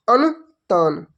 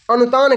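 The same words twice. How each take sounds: First: अनुतान split slowly into अनु, then तान; teacher spelling out अनुतान chunk by chunk; emphatic repeat. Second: Said in the usual way. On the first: Shown as a demonstration. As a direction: say अनुतान in two separate, drawn-out parts. Teacher repeats answer for students.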